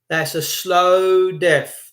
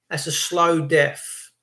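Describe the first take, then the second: First: Slow dwelt on, falling; That's a slow death, slowly, with slow stressed; slow, weighted repeat. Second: Said in the usual way. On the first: Shown as a demonstration. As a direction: draw out slow death heavily.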